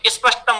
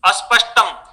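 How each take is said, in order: First: The 'sp' cluster is said directly without vowels. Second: A vowel is added before the 'sp' cluster. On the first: It reflects another region's speech habit. "Rajasthan में स्पष्टम बोलते हैं" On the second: It reflects one region's speech habit. "Uttar Pradesh के लोग बोलेंगे"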